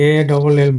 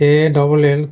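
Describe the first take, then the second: No difference in how they are said.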